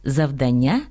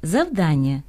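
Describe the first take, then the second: First: «завдання» stressed on the final syllable, завданнЯ; stress on last syllable. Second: «завдання» stressed on the middle syllable, завдАння; stress on -дан-. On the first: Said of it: "неправильно". («завдання» — наголос на останнє «ня») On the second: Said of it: "наголошуються так само". («завдання» — наголос на «дан») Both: Shown as a demonstration.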